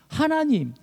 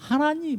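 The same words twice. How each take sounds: First: It is cried out with anguish. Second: It is said flatly, without emotion.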